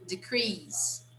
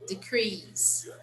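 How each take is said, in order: First: The stress is on the second syllable. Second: The stress is on the second syllable.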